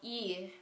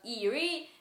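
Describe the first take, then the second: First: The vowel's pitch clearly falls downward. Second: The vowel's pitch stays level, without falling. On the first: The speaker calls it right. "the E that goes down" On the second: The speaker calls it wrong. "It's not eerie"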